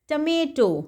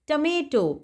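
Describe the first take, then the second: No difference in how they are said.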